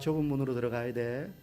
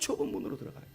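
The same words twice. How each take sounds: First: It is said in a calm, mild voice. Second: It is said in an agitated, urgent voice. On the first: It sounds like a casual suggestion. The speaker calls it wrong. "뭐 이렇게 말씀하지 않으셨을 거 아니에요" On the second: It conveys desperate concern for the listeners. The speaker calls it right. "막 격앙된 목소리로 하셨을 거란 말이죠. 타는 목마름으로 안타까움으로"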